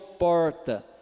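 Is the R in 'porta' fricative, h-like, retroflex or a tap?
retroflex. The R is curled back in the mouth. "o do paulista, que é do interior de São Paulo"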